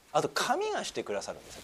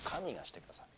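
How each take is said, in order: First: Said in the usual way. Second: 神がしてくださる repeated far softer and lower; soft echo. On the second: Shown as a demonstration. Pastor repeating to the congregation, softer and lower. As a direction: let 神がしてくださる fall to a hushed echo.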